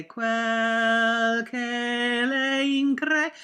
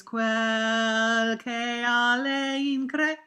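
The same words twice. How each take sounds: First: Sung, "Quel che le incre" spoken very slowly, each syllable drawn out; sung, spell out "Quel che le incre" slowly, without the "a"; sung-text diction. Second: "Quel che a le incre" spoken very slowly, with the "a" sounded; other version. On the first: Sung, coach demonstrating one singer's diction, slow and drawn out. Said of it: "how many people say". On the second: Coach demonstrating the other singers' diction, slow with the added a. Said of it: "and who sings". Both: Shown as a demonstration.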